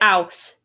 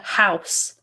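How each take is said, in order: First: The word starts without an h sound. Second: The word starts with a clear h sound. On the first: "It's not a proper H sound. Like I say house" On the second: "instead of house"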